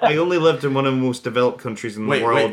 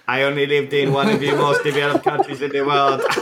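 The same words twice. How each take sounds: First: It is said in the speaker's ordinary accent. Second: It is said in a put-on imitated accent.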